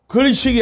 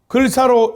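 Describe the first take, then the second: First: The second syllable is pronounced 'sik'. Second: The second syllable is pronounced 'sa'. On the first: It means going to get food in general. The speaker calls it wrong. "글식이 아니라" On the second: It means going to get rice, a meal. The speaker calls it right. "글사로 읽어야 됩니다"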